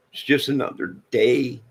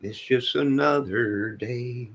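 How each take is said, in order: First: Said in the usual way. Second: "It's just another day" slowly stretched, the word "another" leaned on; slow, drawn out. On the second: Shown as a demonstration. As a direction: let "another" sag slowly. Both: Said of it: "says it twice, second slower".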